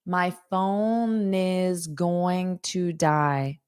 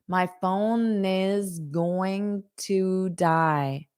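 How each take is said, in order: First: Each word is said slowly and separately. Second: The same.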